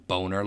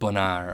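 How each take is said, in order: First: The second syllable has a weak 'er' vowel. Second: The second syllable has a full 'ar' vowel. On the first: The speaker calls it right. "that is how it is pronounced" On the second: The speaker calls it wrong. "It's not Bonar or anything"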